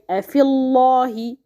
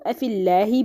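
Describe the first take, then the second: First: "afillahi" with a heavy, dark l and open back "aw" vowel; wrong heavy lam. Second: "afillahi" with a thin l and front "a" after it; correct light lam. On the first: Teacher showing what cannot be said, heavy lam. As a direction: fill the mouth on the lam in "afillahi". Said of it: "Here we cannot say". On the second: Teacher correcting the heavy reading, light lam. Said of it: "read lightly with tarqiq". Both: Shown as a demonstration.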